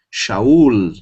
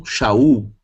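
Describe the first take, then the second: First: Shaul ending on a clear L sound. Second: Shaul with the final L turned to U, Shau; wrong Shaul. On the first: Teacher models Shaul with the final Lamed. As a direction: finish Shaul on a real L, not U. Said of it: "eu tenho Shaul". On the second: Teacher shows how students wrongly pronounce Shaul. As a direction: say Shaul the Portuguese way, ending in U. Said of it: "E não Shaul". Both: Shown as a demonstration.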